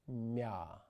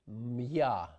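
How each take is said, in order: First: A soft M blends into ya. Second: A hard M is followed by ya. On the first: The speaker calls it right. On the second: The speaker calls it wrong.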